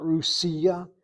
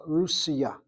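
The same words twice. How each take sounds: First: "Rusia" as ru-SI-a, middle syllable stressed; wrong stress demo. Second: "Russia" as RUS-ya, emphasis on RUS; first-syllable stress. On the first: Teacher showing what not to say, "Rusia" stressed on SI. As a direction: lean on the SI in "Rusia". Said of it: "not Rusia". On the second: Teacher correcting the Hebrew word, "Russia" stressed on RUS. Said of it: "with the emphasis on that first syllable". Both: Shown as a demonstration.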